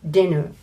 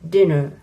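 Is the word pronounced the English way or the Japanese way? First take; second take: English; English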